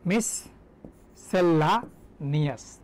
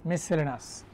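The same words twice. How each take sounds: First: মিসসেলানিয়াস very slowly as mis, sella, nias with pauses; broken into syllables. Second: মিসসেলেনাস in one run, ending "-lenas"; everyday local pronunciation. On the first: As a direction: sound out মিসসেলানিয়াস piece by piece. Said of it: "মিসসেলানিয়াস বানানো হচ্ছে". (মিসসেলানিয়াস থেমে থেমে, ভেঙে উচ্চারণ) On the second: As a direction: say মিসসেলেনাস casually shortened, no breaks. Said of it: "উচ্চারণ আমরা করি এইভাবে". (মিসসেলেনাস চলতি উচ্চারণে, একটানা) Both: Shown as a demonstration.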